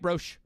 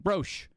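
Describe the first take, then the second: Both takes have the same delivery.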